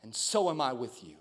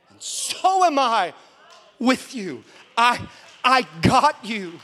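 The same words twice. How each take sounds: First: Soft, low and tender; gentle divine voice. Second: Slow, loud, high declaration; emphatic proclamation. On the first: The Holy Spirit reassuring a father, soft and low. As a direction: say it low, as a hushed revelation. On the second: Preacher passing on God's reassurance to the church, loud and slow. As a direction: stretch it out and proclaim it. Preacher repeats the Spirit's words forcefully. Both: Retold or imitated.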